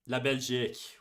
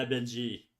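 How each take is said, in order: First: "Belgique" with the final k sounded; corrected French pronunciation. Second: "Belgique" ending on a zhee sound, final k dropped; "Belgique" without its closing k; unsure French pronunciation. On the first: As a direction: say "Belgique" as bel-ZHEEK. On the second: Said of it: "C'est-tu Belgique en français?". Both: Real, not acted.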